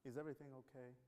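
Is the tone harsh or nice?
nice. It is said in a kind, gentle tone.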